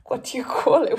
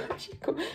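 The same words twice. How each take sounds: First: Said in the usual way. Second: Laughing through the question, almost voiceless. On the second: Real, not acted. Asking viewers again, laughing. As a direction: laugh it out breathily.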